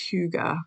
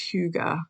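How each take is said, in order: First: The word is said like 'hoo-ga'. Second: The same.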